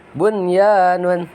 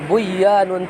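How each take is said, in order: First: The n before the y is clearly pronounced. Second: The n before the y is merged away. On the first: The speaker calls it right. "dibaca jelas" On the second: The speaker calls it wrong. "tidak dibaca buyanun"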